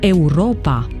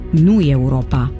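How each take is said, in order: First: The word begins with a plain 'e' sound. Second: The word begins with a 'ye' sound. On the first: The speaker calls it right. "Se citește E curat" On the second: The speaker calls it wrong.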